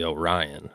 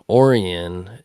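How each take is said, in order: First: The name is pronounced the way it is spelled. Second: The name has the local, nonstandard pronunciation. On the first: The speaker calls it right. "It's really Orion, is how it's spelled" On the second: The speaker calls it wrong. "I'm pronouncing it fucked up"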